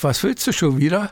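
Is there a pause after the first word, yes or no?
no. It is said as one phrase without pause.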